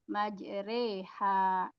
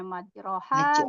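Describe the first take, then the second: First: The vowel after the r is tilted toward e. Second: The vowel after the r is a plain open a. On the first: It is read with imalah in this recitation. "dibacanya majroha menjadi majreha" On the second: It follows the written vowel as usual. "yang ada di tulisannya harusnya majroha"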